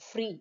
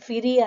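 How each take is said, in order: First: The f and r are joined with no vowel. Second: An extra vowel splits the f from the r. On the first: The speaker calls it right. "మనం ఫ్రీ అంటున్నాం" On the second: The speaker calls it wrong. "ఫిరీ అనట్లేదు"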